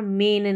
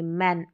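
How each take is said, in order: First: The vowel is a mid 'e' sound. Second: The vowel is an open 'a' sound. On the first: The speaker calls it wrong. "मेन नहीं बोलेंगे" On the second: The speaker calls it right.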